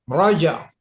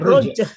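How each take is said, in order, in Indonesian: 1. Vokal pertama terdengar seperti 'o' terbuka. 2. Vokal pertama terdengar seperti 'u' tertutup. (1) "Roja, bukan ruja" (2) "bukan ruja"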